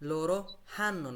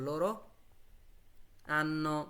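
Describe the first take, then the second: First: The verb starts with an audible h sound. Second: The verb starts with a plain vowel, no h. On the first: The speaker calls it wrong. "লোরো হান্নো না" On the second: The speaker calls it right. "কি বলবো লোরো আন্ন"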